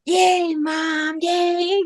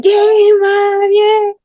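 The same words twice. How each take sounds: First: High, drawn-out cheer at soft volume; small, high-pitched mock cheer; imitated cheering. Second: High, loud drawn-out cheer; excited mock scream, pitched way up; imitated screaming. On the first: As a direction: mimic kids cheering for their mom, held back. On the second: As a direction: scream it like kids cheering on their mom.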